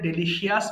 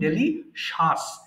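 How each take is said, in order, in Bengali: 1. শেষ অংশটি 'shee-us' বলা হয়। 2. শেষ অংশটি 'shus' বলা হয়। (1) "ভুল করে ডেলিশিয়াস বলি" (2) "এটা সঠিক হচ্ছে ডেলিশাস"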